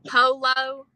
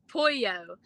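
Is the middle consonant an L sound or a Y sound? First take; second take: L sound; Y sound. First: The middle consonant sounds like an L. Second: The middle consonant sounds like a Y. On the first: The speaker calls it wrong. "He'll say polo" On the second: The speaker calls it right. "but instead it's pronounced pollo"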